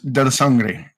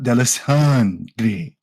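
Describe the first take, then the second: First: The name is said plainly and compactly. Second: The name is said with an exaggerated extra syllable. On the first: The speaker calls it right. "It is Del Sangre" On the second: The speaker calls it wrong. "Your exaggeration of my name"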